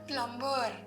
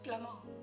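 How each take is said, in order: First: The b sound is pronounced in the word. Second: The b sound is silent in the word. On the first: The speaker calls it wrong. "It is not प्लम्बर" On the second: The speaker calls it right. "ब is silent"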